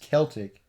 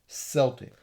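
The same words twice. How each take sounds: First: Celtic is said the usual English way. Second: Celtic is said the usual Scottish way. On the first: The speaker is from England or Wales. "in England and Wales. It's usually pronounced Celtic" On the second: The speaker is from Scotland. "in Scot- Scotland you're more likely to hear Celtic"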